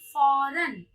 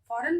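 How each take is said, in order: First: The word begins with an f sound. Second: The word begins with an aspirated ph sound. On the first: The speaker calls it right. "फ में नुक्ते का प्रयोग करके उच्चारण के साथ बोलेंगे" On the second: The speaker calls it wrong. "फौरन बोलेंगे नहीं"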